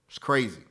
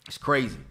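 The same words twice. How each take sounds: The two takes are said the same way.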